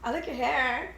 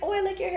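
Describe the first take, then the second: First: The compliment sounds insincere and backhanded. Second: The compliment sounds warm and sincere.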